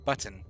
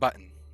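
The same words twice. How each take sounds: First: A clear T is pronounced in the middle. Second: A glottal stop replaces the middle T. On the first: "We don't say button" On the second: "a glottal stop. We won't say a T at all"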